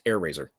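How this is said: The name runs together as one word. The speaker calls it right. "it's just Air Razor. One word"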